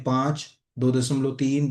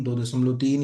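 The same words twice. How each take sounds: First: Slow, weighted reading with "दो" leaned on; teacher spelling out "दो दशमलव तीन" slowly for note-taking; slow emphasis. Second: Said in the usual way. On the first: Shown as a demonstration. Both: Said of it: "इसको अगर हम ध्यान से देखें".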